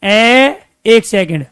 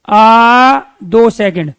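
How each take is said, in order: First: Drawn-out vowel sound; short vowel demo. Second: Slow, louder, stretched out आ; long vowel demo. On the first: Teacher sounding out ए for students, slow. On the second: Teacher stretching आ for students, slow and loud. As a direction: stretch आ for two full seconds. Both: Shown as a demonstration. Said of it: "देखो उच्चारण करके".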